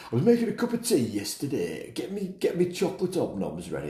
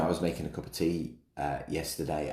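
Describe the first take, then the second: First: High-pitched, hammed-up classic English accent; put-on English accent. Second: Said in the usual way. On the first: Podcaster mocking a classic English tea remark, put-on English accent. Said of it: "I don't know why I'm putting that accent on". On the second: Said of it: "just my normal accent is fine".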